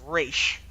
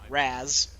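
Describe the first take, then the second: First: The name ends with an 'sh' sound. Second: The name ends with a 'z' sound. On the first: The speaker calls it right. "it's Raish" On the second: The speaker calls it wrong. "not Raz"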